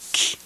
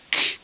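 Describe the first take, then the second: Both takes have the same delivery.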